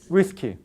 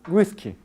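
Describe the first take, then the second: The two takes are said the same way.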